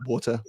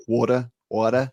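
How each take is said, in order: First: Said in the usual way. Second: Brit trying an American "water"; attempted American accent. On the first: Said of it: "the second way you say water". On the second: Shown as a demonstration. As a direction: say WATER American-style, not quite convincingly. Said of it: "can't even do it in an American accent".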